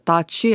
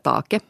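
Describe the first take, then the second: First: The consonant is softened to a ch sound. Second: The consonant is a hard k sound. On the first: This is the norra Strömfors and Pyttis dialect form. "Och sen säger de tachi" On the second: This is the form used in many other parts of Östnyland. "medan vi på många andra håll i Östnyland säger take"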